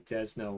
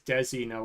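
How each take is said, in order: First: It is said with two syllables. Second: It is said with three syllables. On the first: The speaker calls it right. "Desno Romantic is the correct way to pronounce this one" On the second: The speaker calls it wrong. "I thought it was Desi No Romantic"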